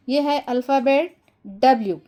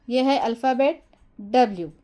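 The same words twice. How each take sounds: The two takes are said the same way.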